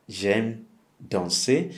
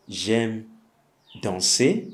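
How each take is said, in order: First: "J'aime danser" said very slowly, every syllable clear; slow, clear demo. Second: Said in the usual way. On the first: Shown as a demonstration. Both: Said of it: "If you like dancing".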